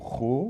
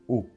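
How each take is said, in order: First: It begins with an audible r sound. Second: It begins directly with the vowel sound. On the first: The speaker calls it wrong. "ou ro" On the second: The speaker calls it right. "ou non, o"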